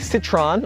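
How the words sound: The name is said with an American pronunciation. "Here in America we say"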